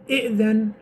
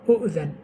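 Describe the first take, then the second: First: The word begins with the vowel i. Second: The word begins with the vowel u. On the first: "We say kasra"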